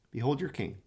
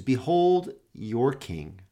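First: Softer repeat of Behold your king; soft echo. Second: Slow, solemn Behold your king; slow proclamation. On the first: Preacher echoing Pilate's words to himself, softly. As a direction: let Behold your king fall away quietly. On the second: Pilate presenting Jesus to the crowd, slow and solemn. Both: Acted.

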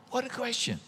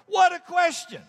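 First: Soft aside. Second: High, incredulous cry; amazed exclamation. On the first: Same remark repeated softly. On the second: Preacher marvelling at the question to the congregation, high and amazed. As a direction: marvel out loud at it. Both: Real, not acted.

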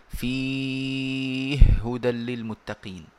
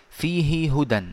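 First: فيه هدى with the two ha sounds merged into one doubled ha, recited slowly; merged Sousi reading. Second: Said in the usual way. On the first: Shown as a demonstration. Teacher reciting the Sousi reading of فيه هدى, merging the two ha sounds. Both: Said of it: "وهذه يقرأها السوسي".

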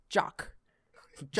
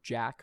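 First: "Jock" for Jack, British open vowel; Keira Knightley. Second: Said in the usual way. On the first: Acted. Actress calling Jack Sparrow, "Jock" with a rounded British vowel. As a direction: punch "Jock" with lips never touching. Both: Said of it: "the way she says, uh, Jack for Jack Sparrow".

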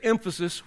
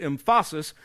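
First: Said in the usual way. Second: "emphasis" stressed on the middle syllable, em-FAH-sis; wrong-syllable stress. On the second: Shown as a demonstration. Preacher jokes about misplaced emphasis, stressing "emphasis" on its second syllable. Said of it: "is on the wrong syllable".

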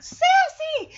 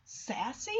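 First: High, loud shout of the name; joyful recognition. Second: Hushed questioning call; Shadow. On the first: Dogs recognizing their lost cat, overjoyed shout. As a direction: shriek the name in delight. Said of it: "And it's like". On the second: Dog stops at a meow, softly questioning. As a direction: ask the name softly, unsure. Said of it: "And Shadow's like". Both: Acted.

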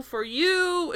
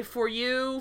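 First: "you" lifted high and drawn out; back-and-forth retort. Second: Said in the usual way. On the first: Retold or imitated. Retelling the couple's back-and-forth, "you" pitched up in retort. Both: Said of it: "back and forth where they say".

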